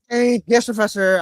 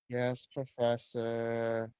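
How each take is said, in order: First: It is said in an enthusiastic, lively tone. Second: It is said in a flat, unenthusiastic tone.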